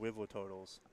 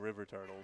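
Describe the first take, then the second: First: The r sounds are said like w sounds. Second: The r sounds are said as clear r sounds. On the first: The speaker calls it wrong. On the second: The speaker calls it right.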